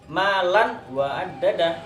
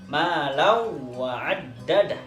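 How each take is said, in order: First: The n sound is kept before the w. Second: The n sound is merged into the w. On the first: "dalam Al-Qur'an" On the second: "idgham biguna"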